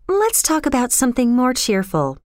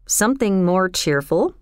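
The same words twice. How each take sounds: First: Put-on higher-pitched girl changing the subject; lightly voiced girl, tune falling at the end; evasive girl. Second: Puzzled question, rising at the end; lightly questioning, in the natural register; curious echo. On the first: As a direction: steer away in a high girl's voice. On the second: Acted. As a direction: echo it back as a mild question. John curiously echoes her words.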